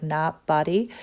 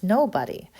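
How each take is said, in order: First: "not buddy" for Nobody, short first vowel; altered pronunciation. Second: Said in the usual way. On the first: Shown as a demonstration. Teacher guessing how he disguised his name, said as "not buddy". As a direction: split Nobody into two words, "not buddy". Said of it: "it was probably more like". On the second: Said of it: "he probably didn't pronounce it just like that".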